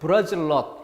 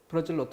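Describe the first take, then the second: First: The words are joined and nut starts with l. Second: The words are separated and nut starts with n. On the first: "둘을 붙여서 ... n이 소리가 날까? 그것이 변화하는 것입니다. 그래서 L" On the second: "브라질 띄우고 너트 하면은 그때 분명히 n의 소리값이 나겠죠"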